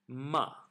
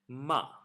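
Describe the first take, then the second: No difference in how they are said.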